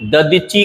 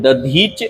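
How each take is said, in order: First: दधीचि with a vowel ending, da-dhee-chee; wrong pronunciation. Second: दधीच closing on ch, da-dheech; correct pronunciation. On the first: Teacher revising the mistake, दधीचि said ending in chee. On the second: Teacher naming the sage rightly, दधीच said as da-dheech. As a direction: stop दधीच on the consonant. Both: Shown as a demonstration. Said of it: "का सही है".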